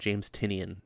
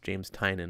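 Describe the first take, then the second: First: The surname is said like 'Tinian'. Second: The surname is said like 'Tynan'. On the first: The speaker calls it wrong. "I was calling him James Tinian" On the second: The speaker calls it right. "it was James Tynan"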